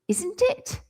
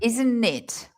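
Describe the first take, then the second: First: The voice rises at the end. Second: The voice falls at the end. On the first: It is a real question needing a yes or no. The speaker calls it wrong. "When I put my voice up, that it really sounds like a question" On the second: It invites the other person to chat. The speaker calls it right. "It's a falling. It's an it's a rise and a fall"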